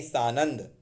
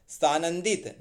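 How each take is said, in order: First: सानंद without the -it ending; correct form सानंद. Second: सानंदित ending in -it; wrong form सानंदित. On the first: Teacher corrects सानंदित, shorter form. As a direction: say सानंद, saa-nand. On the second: Teacher rejects the wrong word, mistaken form. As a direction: say सानंदित, saa-nan-dit. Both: Shown as a demonstration. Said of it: "सानंदित नहीं".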